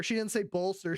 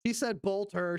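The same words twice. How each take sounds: First: Bolster said fully with the s sound, "bolster"; correct bolster. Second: Bolter said as "bolter" without the s, like the Warhammer gun; bolter mispronounced. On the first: Correcting the anchor's word to proper bolster. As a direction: say bolster clearly with the s. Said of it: "like to bolster your troops". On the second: Mocking the anchor who said bolter, not bolster. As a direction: say bolter, dropping the s. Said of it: "She said bolter like the Warhammer forty K gun". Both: Shown as a demonstration.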